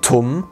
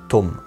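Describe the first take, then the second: First: The t has a puff of breath after it. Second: The t has no puff of breath. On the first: The speaker calls it wrong. "nicht tum ausgesprochen wie Turm im Deutschen" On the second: The speaker calls it right. "sondern tum"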